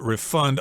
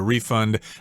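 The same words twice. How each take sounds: First: The stress is on the second syllable. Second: The stress is on the first syllable. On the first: It is used as a verb. "Usually the accent is on the second syllable when it's a verb" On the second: It is used as a noun or a verb. "although you will hear people say refund both as the noun and the verb form"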